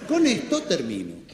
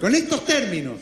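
First: "termino" misread with the stress on MI; misreading with the accent missed on "termino"; misplaced stress. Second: "términos" stressed firmly on TÉR; corrected stress. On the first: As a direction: read "termino" as a sign-off, stressing the middle syllable. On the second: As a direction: correct the misreading, hitting the first syllable of "términos". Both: Acted. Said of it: "No le han puesto el".

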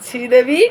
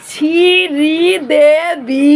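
First: Said in the usual way. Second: শ্রীদেবী drawn out very slowly, higher and louder; careful pronunciation. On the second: Shown as a demonstration. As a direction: stretch every syllable of শ্রীদেবী, loud and high. (শ্রীদেবী ধীরে ধীরে টেনে, জোরে ও উঁচু গলায় উচ্চারণ) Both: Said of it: "উচ্চারণটা হয়েছে তো গাইস?".

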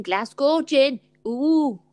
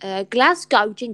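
First: "Glasgow gin" with a light Scottish accent, "Glasgow" said "Glazgo"; lightly done Scottish accent on "Glasgow gin". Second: Said in the usual way. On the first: Shown as a demonstration. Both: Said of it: "That's my Scottish accent".

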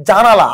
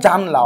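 First: জানালা said in full, three syllables ja-na-la; full form with the a. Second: জানলা said in two syllables jan-la; dropped vowel. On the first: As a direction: keep the long middle আ in জানালা. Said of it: "এখানে একটা আ ছিল". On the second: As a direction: drop the middle আ so জানলা runs together. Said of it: "অনেকে উচ্চারণ করে কি ভাইয়া জানলা". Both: Shown as a demonstration.

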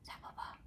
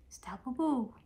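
First: Soft unvoiced whisper of the pet's name. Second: Said in the usual way. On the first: Real, not acted. Owner whispering her dog's name, hushed. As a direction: breathe the name softly.

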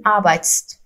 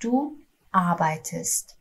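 First: Arbeitst squeezed together with no e before st, said as the hard-to-pronounce version; awkward wrong form. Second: Du arbeitest said very slowly with a clear e before st; correct easy form. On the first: Teacher showing students the hard form, jammed consonants. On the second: Teacher modelling the correct form for students, very slow. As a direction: spell out arbeitest syllable by syllable, slowly. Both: Shown as a demonstration.

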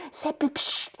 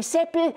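First: Unvoiced whispered call with a psst. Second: Said in the usual way. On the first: Kasperl secretly waking the sleeping Seppel, whispered. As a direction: hiss his name so nobody else wakes.

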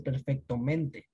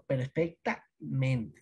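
First: "perfectamente" said with O before -mente, as "perfectomente"; "perfectamente" mispronounced on purpose with O in place of A; wrong vowel form. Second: Slow "perfectamente", clear A, then a break before "mente"; "perfectamente" split in two to show the A before -mente; corrected A form. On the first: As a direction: run it together as "perfecto-mente", keeping the O. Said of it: "no va a ser". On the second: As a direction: say "perfecta... mente", drawing out both parts. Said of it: "se cambia esta vocal por A". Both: Shown as a demonstration.

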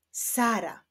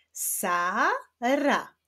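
First: Said in the usual way. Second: "Sara" as two drawn-out syllables with a gap; syllables held apart. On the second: Shown as a demonstration. Teacher joining syllables into words, "Sara" first read apart. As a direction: sound out "Sara" one long syllable at a time. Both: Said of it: "odczytajmy wyrazy poprzez połączenia sylab".

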